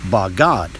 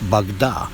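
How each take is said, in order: First: The word ends on a consonant sound. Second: The word ends on a vowel sound. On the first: "the last character is unvocalized" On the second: "the second character is unvocalized"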